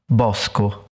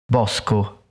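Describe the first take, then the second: The two takes are said the same way.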